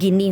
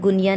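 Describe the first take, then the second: First: It is said as gi-nee, two syllables. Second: It is said as goo-nee-ya, three syllables. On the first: The speaker calls it right. "गिनी होगा" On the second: The speaker calls it wrong. "इसकी pronunciation गुनिया नहीं है"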